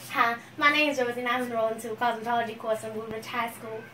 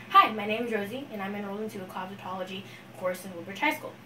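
First: Country-accented self-introduction. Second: Said in the usual way. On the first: Shown as a demonstration. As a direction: introduce yourself with a country twang. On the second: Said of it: "This is me talking".

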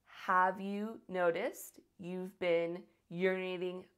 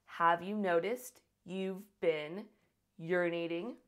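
The two takes are said the same way.

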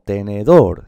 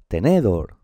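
First: Tenedor slow, loud on DOR; stress on final syllable. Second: Tenedor stressed on NE; wrong middle-syllable stress. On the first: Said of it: "Sí". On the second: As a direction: hit NE in tenedor, slowly. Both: Shown as a demonstration.

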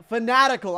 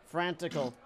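First: "fanatical" said louder, with a clear "nat"; corrected pronunciation. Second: "frantical" with "fran" in place of "fa-nat"; mispronounced word. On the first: Player corrects his misreading, "fanatical" with every syllable there. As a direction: correct it to fa-NAT-ical, punched loud. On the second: Player misreads the crowd's mood, saying "frantical" for fanatical. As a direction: fumble it as "frantical", two syllables run into "fran". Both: Real, not acted. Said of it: "I'm sorry".

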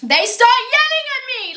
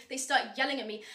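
First: High-pitched exasperated outburst; outraged wail. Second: Much softer, defeated statement; hushed, crushed disbelief; deflated repeat. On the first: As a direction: wail it in comic indignation. Outraged wail at being yelled at. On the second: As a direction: say it quietly, all fight gone. Same words again, deflated. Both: Retold or imitated.

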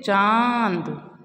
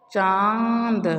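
First: चांद drawn out very slowly, nasal vowel held long; slowly sustained चांद. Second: Said in the usual way. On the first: Shown as a demonstration. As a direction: stretch चांद, lingering on the nasal आं. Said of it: "उसको हम थोड़ा रुक के पढ़ते हैं".

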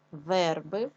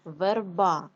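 First: Верби with the first syllable stressed, е; front-stressed верби, shown to pupils. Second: Верба with a strong, long final а; end-stressed Верба, shown to pupils. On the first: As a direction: lean on the е in верби. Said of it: "падає наголос на е". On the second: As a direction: push the last syllable of Верба. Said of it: "падає на а". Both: Shown as a demonstration.

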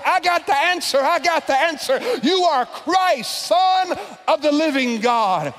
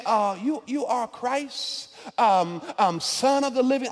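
First: Higher, louder eager shout; yelling out. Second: Unsure mumbling answer. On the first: Peter shouting his answer to Jesus first. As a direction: blurt it out like the eager student. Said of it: "yells out". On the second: Peter guessing timidly at the answer. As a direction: mumble it like you're not sure. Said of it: "when you're trying to answer a question and you don't really know". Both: Retold or imitated.

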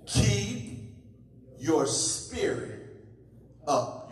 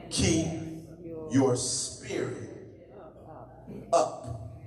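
First: A preacher pressing the words on the congregation again; drawn-out urging. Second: Breathy, drawn-out "Keep your spirit up" with "your spirit up" near a whisper; a preacher hushing the church to repeat after him; hushed urging. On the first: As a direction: draw out "Keep" and let "up" fall. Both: Shown as a demonstration.

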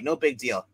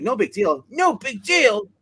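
First: Said in the usual way. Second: A scolding aunt throwing his words back; mock angry echo. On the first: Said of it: "it's basically says". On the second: Aunt scolding her nephew, repeating his words in mock anger. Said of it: "She yells at him".

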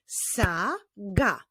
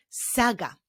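First: SAGA very slowly as SA, pause, GA; teacher revealing SA... GA; syllables drawn out. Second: Said in the usual way. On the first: Shown as a demonstration. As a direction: separate the two syllables of "saga". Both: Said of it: "Pierwszą jego sylabą jest sylaba sa".

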